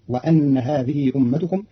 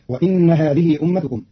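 First: وأن said "wa-anna" with a after hamza; وأن بفتح الهمزة; hamza with fatha. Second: Said in the usual way. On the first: Shown as a demonstration. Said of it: "بفتح الهمزة". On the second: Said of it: "قرأ قالون كلمة وإن بفتح الهمزة".

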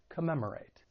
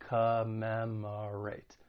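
First: Said in the usual way. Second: Commemorate very slowly, syllable by syllable, uh in first and third; schwa syllables. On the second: Shown as a demonstration. Teacher showing the schwa sound, Commemorate broken slowly into syllables. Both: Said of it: "first and third syllable have that schwa".

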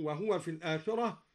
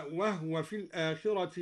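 First: "وهو" in three syllables before "في الآخرة"; vowelled ha. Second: "وهو" in two syllables before "في الآخرة"; silent-vowel ha. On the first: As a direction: say "وهو" as wahuwa, u after the ha. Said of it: "سكن الهاء". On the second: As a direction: say "وهو" as wahwa, ha without a vowel. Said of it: "سكن الهاء هكذا". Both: Shown as a demonstration.

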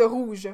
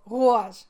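First: Said in the usual way. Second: "rouge" forced into a loud "rou-age"; forced regional pronunciation. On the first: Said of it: "Au lieu de rouge". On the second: Shown as a demonstration. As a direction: exaggerate the diphthong in "rouge", roo-ahzh. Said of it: "faut que je me force".

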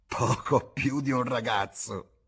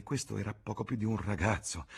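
First: Slow, louder, higher mocking echo; sneering. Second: Said in the usual way. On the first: A narrator's reading. Bar woman mocking James's words with a slow sneer. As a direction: sneer the words back slowly. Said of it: "sogghignò".

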